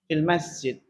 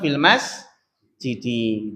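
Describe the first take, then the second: First: The last word ends on a bare consonant. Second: The last word ends with a final vowel. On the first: This is the shortened form used in conversation. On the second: This is the original full form. "Secara asal"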